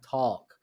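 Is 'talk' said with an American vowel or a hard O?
American. The vowel sounds like typical American English. "normally, you know, in American language"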